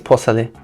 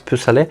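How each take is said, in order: First: The first syllable sounds like 'poh'. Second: The first syllable sounds like 'poo'. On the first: The speaker calls it right. "I think it's posale" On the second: The speaker calls it wrong. "I always pronounce pusale, It's not right"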